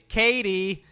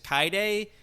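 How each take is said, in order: First: The name is said like Katie. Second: The name is said like Kaide. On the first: This is how the dub actor says the name. The speaker calls it wrong. "so they say Katie" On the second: This is the intended pronunciation of the name. The speaker calls it right. "I'm pretty sure the girl's name is Kaide"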